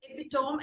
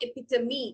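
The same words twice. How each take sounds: First: "epitome" as epi-TOME, rhyming with home; "epitome" said as three syllables, silent final e; wrong pronunciation. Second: "epitome" as e-PIT-uh-mee; "epitome" in four syllables ending "-mee"; correct pronunciation. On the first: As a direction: end "epitome" in a long "tome". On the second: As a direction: sound the last e of "epitome" as "mee". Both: Shown as a demonstration. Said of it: "it is epitome അല്ല".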